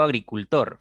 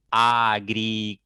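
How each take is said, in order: First: Said in the usual way. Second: Split into syllables. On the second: Shown as a demonstration. Teacher has students look at the word, "agricultor" syllable by syllable. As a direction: sound out "agricultor" in four long, level syllables. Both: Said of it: "Tiene cuatro sílabas".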